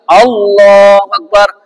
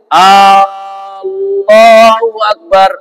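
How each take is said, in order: First: The first vowel of Allah is kept short. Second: The first vowel of Allah is drawn out long. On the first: It states that Allah is the greatest. The speaker calls it right. "Padahal mestinya" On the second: It asks whether Allah is the greatest. The speaker calls it wrong. "memanjangkan hamzah pada pada lafaz Allah"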